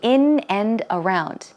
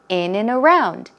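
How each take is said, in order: First: The three words are said separately. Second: The three words run together as one. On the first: The speaker calls it wrong. "try not to say in and around" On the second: The speaker calls it right. "pronounce it as one word"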